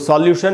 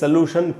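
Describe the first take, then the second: First: The first vowel sounds like 'aw'. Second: The first vowel sounds like 'oh'. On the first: The speaker calls it wrong. "सॉल्यूशन नहीं" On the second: The speaker calls it right.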